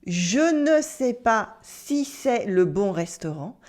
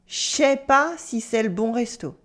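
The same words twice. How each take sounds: First: Slow, careful "Je ne sais pas", every word separate; formal full negation. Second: "Je sais pas" run together as "shay pa"; natural casual negation. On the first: Teacher gives learners the textbook version, formal full negation. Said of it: "using the ne often sounds overly formal or stiff". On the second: Teacher models everyday French for learners, natural casual negation. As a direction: slur "Je sais" into one "shay" syllable. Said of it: "Let's practice these natural negations". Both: Shown as a demonstration.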